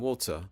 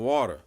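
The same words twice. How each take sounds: First: It is said in a British accent. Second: It is said in an American accent. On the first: "sounded like he was from Britain" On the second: "I'm not gonna say water"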